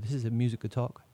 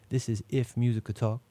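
First: The words run together at a casual pace. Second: Each word is articulated slowly and distinctly.

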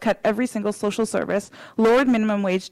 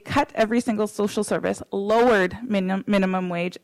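First: It is spoken at a normal, quicker pace. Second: It is spoken slowly and deliberately.

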